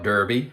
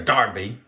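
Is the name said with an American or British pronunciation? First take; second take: American; British. First: It is said the American way, like Derby. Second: It is said the British way, like Darby.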